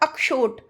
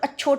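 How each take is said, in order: First: The middle sound is a clear 'ksh' cluster. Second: The middle sound is a plain 'ch' sound. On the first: The speaker calls it right. "अभी मैंने बोला ना अक्षोट" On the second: The speaker calls it wrong. "सब अच्छोट बोल के चले जाते हैं, तो वो गलत है"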